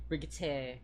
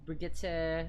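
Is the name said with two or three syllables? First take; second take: three; three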